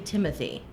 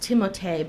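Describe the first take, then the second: First: The name is said with an English pronunciation. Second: The name is said with a French pronunciation. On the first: "he says you can say Timothy" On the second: "in the French pronunciation"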